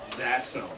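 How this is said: It is said in a cold, dismissive tone.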